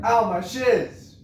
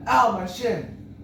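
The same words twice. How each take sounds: First: "shiz" said slowly and loudly, with a buzzing z where "shin" should end; misheard word. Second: Slow, loud, high retold yelp; mock yell. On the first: Retold or imitated. Mom mishears the cry, slow loud "shiz". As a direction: stretch "Ow, my shiz!" out, landing hard on "shiz". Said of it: "my mom heard". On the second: Kid tripped on the street, slow loud yelp. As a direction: drag out the child's cry of pain. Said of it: "and I yelled".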